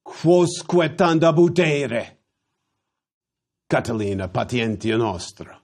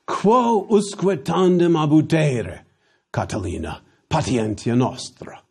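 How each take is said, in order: First: "Quosque tanda butere" run together, syllables swallowed; contracted Latin. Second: Full Latin orator line. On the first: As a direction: slur "Quosque tanda butere" as one rolling orator's phrase. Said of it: "the contractions an orator would have used". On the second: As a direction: declaim it like Cicero in the senate. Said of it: "A more idiomatic way". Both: Shown as a demonstration.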